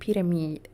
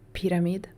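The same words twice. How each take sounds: First: It is said with a Swedish-sounding pronunciation. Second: It is said with an ordinary non-Swedish pronunciation.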